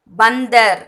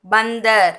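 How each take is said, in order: Both takes have the same delivery.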